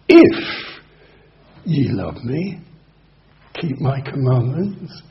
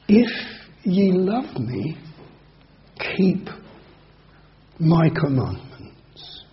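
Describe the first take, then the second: First: It is said doubtingly, implying they don't. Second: It is said gently and warmly.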